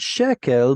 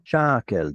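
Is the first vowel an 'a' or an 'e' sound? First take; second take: e; a. First: The first vowel is an 'e' sound. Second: The first vowel is an 'a' sound. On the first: This is the ordinary form of the word. "this is the word shekel" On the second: This form is used at the end of a verse or unit. "This is what's called pausal form"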